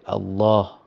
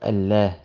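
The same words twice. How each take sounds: First: The L is heavy, with a deep ah sound. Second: The L is light, with a thin clear sound. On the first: The speaker calls it right. "you say Allah" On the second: The speaker calls it wrong. "instead of Allah"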